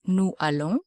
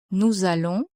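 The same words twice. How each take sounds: First: "nous allons" unlinked, nou allons, with no Z sound; "nous allons" as two separate words, vowel meeting vowel; no liaison. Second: "nous allons" linked with a Z sound, nou-zallons; French liaison in "nous allons", a Z between the words. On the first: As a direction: keep the S of "nous" silent before "allons". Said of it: "The liaison". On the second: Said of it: "where you must say". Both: Shown as a demonstration.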